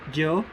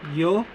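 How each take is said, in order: First: The consonant sounds like English j. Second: The consonant sounds like English y. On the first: "The J-like sound" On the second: "The Y-like or the letter I-like sound"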